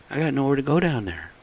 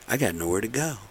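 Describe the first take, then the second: First: Exasperated stress on "go" in "I got nowhere to go down there"; emphatic repeat. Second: Said in the usual way. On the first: Real, not acted. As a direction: GO pushed higher and louder than the first "I got nowhere to go". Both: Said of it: "repeats line with more force".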